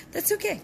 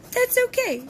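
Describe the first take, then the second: First: Breathy laugh through words; laughing it off softly. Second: Said in the usual way. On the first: Real, not acted. Laughing at own bad luck.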